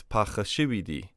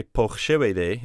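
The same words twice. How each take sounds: First: "pakhashividi" with "ee" vowels to the end; correct plural form. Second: "pokhshevede" as the form not to say, ending in "-ede"; wrong singular form. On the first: Teacher correcting the singular for learners, right plural "pakhashividi". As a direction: say "pakhashividi" as the plural, ending in "-idi". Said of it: "It's pakhashividi". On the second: Teacher showing learners what not to say, wrong singular "pokhshevede". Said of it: "we don't say pokhshevede". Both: Shown as a demonstration.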